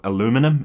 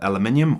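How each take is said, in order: First: It is said with an American pronunciation. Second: It is said with a British pronunciation.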